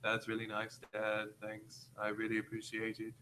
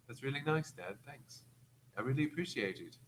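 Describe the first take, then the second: First: It is read flat, with no emotion. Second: It is read with some emotion.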